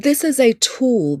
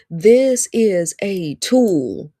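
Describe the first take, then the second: First: Said in the usual way. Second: "This is a tool" said very slowly; drawn out for emphasis. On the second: Real, not acted. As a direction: stretch out each word of "This is a tool". Preacher repeats it for emphasis.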